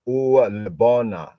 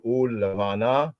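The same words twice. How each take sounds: First: Put-on Lebona with a hard b and o, old pointed reading; ancient pointing pronunciation. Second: Levana with a soft v, modern Israeli way; modern Hebrew pronunciation. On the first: Teacher contrasting the ancient reading, Lebona with hard b. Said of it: "Ancient pointing". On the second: Teacher giving the modern Hebrew reading of Levana. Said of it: "Modern Hebrew". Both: Shown as a demonstration.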